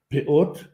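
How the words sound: The word ends in a t sound. "На современном иврите говорят «пеот»"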